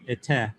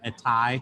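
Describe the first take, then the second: First: The ending ends in a plain 'e' vowel. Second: The ending ends in an 'ai' diphthong. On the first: "Cap is ete" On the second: "Erastian pronunciation"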